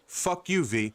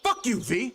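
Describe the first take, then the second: First: It is said softly and toned down. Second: It is said harshly and aggressively. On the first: "let me dial it down" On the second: "That came out mad aggressive"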